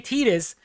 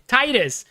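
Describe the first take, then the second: First: The first syllable does not sound like 'tide'. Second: The first syllable sounds like the word 'tide'. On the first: The speaker calls it wrong. "everyone is trying to rewrite history and say Titus" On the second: The speaker calls it right. "Tide. Like the water"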